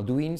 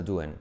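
First: "doing" said "du-in", with a clear i; full -ing ending. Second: "doing" said "duen", like Spanish "duende" cut short; reduced ending. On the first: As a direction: pronounce "doing" carefully as "du-in". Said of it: "luego no doing". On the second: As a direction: weaken "doing" to a quick "DU-en". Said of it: "Como duende, pero sin E". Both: Shown as a demonstration.

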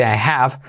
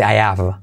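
First: "I have" with the h clearly breathed; sounded H. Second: "I have" with no h, "I 'ave"; dropped H. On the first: Teacher shows the less usual form, "I have" with h. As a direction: keep the h in "have". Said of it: "No se dice". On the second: Teacher shows common form, "I 'ave" without h. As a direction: glide from "I" straight into "av". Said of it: "se suele omitir". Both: Shown as a demonstration.

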